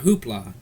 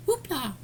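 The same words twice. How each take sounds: First: Said in the usual way. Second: High, falling sing-out of "Hoopla"; playful echo. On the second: Pretend. Echoing his own word mid-rant, playful high voice. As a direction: squeak the word out far above usual pitch.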